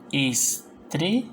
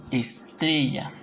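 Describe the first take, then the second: First: "Estrella" slowly as es, tre, lla with pauses; split into syllables. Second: Said in the usual way. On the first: Shown as a demonstration. Teacher demonstrating division, "Estrella" said es, tre, lla. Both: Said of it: "vendría a ser separo".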